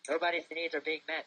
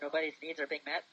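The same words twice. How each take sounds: First: It ends with a fall, like a statement. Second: It ends with a rise, like a question.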